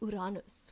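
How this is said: It is pronounced the Spanish way. "in Spanish, they would say"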